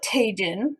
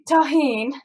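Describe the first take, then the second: First: Tajin said ta-JEEN, English j; Tajin with hard j. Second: Tajín with h sound, ta-HEEN; standard Tajín. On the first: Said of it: "I like to call it Tajin". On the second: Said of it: "but I like to call it Tajin". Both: Shown as a demonstration.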